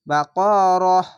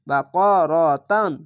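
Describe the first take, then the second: First: The word ends with a soft 'h' sound. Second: The word ends with a nasal 'tan' sound. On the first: The reader stops on this word. "যদি থামেন তাহলে একে হায়ে উচ্চারণ হবে" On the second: The reading continues without stopping. "তানই উচ্চারণ হবে"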